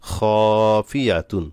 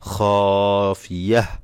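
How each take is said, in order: First: The word ends with a full -tun ending. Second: The word ends with a stopped h sound. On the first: The reading continues without stopping. "তা দুই পেশতুন" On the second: The reader stops at this word. "ওয়াকফ করলে খাফিয়াহ"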